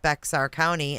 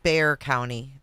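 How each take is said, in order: First: The first word is said with a 'ks' sound. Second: The first word is said without a 'ks' sound. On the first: The speaker calls it wrong. "I'm saying it wrong" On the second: The speaker calls it right. "I guess the X is silent"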